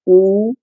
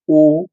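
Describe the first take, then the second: First: The vowel is held about twice as long. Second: The vowel is held very briefly. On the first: The vowel takes two units of time. "ये दीर्घ स्वर है" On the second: The vowel takes one unit of time. "ये हिरस्व है"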